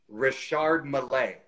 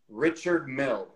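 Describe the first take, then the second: First: The name ends with an added 'ay' sound. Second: The name ends in a plain 'mill' sound. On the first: The speaker calls it right. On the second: The speaker calls it wrong.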